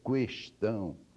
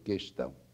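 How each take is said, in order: First: A W sound follows the K sound. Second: No W sound follows the K sound. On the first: The speaker calls it wrong. "a pessoa insiste em pronunciar esse U" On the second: The speaker calls it right. "a pronúncia deve ser questão"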